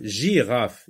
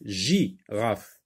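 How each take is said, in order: First: Said in the usual way. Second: "Girafe" broken into gi and rafe; teacher sounding out "Girafe" in two beats; split into syllables. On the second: Shown as a demonstration. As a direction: pause after gi in "Girafe". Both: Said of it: "Je n'entends pas, euh, le son G".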